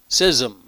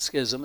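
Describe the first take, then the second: First: The word is said without the 'ch' sound. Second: The word is said with the 'ch' sound. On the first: The speaker calls it right. "You don't pronounce the C-H in that word" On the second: The speaker calls it wrong.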